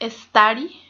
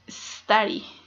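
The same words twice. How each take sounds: First: An extra 'e' vowel comes before the s. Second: The word starts directly with the s sound. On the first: The speaker calls it wrong. "we tend to say study with e" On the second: The speaker calls it right. "but it's study"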